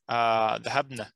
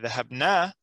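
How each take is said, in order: First: The final vowel is short. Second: The final vowel is long. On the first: The women went. "The noon with a fatha" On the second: We went. "that means we went"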